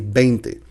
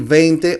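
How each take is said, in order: First: The first sound is a two-lip B. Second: The first sound is a lip-and-teeth V.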